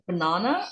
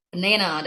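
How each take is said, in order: First: Banana as buh-NAH-nuh; long open AH in the middle of banana; British-style banana, NAH in the middle; British pronunciation. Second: Banana as buh-NAY-nuh; stressed middle of banana rhymes with "day"; American-style banana, NAY in the middle; American pronunciation. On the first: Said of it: "banana adalah British". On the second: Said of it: "American English". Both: Shown as a demonstration.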